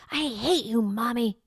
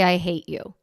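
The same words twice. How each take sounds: First: Higher, hammed-up child's outburst; dramatic little kid. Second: Calm, factual quoting of the words; just state it plainly, no drama; matter of fact. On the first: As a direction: play it like a small child throwing a fit. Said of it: "use kind of that dramatic affect". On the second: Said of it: "you can be a little more matter of fact". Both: Shown as a demonstration.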